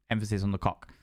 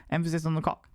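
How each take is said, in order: First: Emphasis on COCK. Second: Higher-pitched repeat ending on "cock"; emphasis on COCK. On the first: Streamer joking to newcomers, low stress on "cock". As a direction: murmur it low, landing on "cock". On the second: Streamer repeating the running joke, higher stress on "cock". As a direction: lift the pitch and land on "cock". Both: Shown as a demonstration.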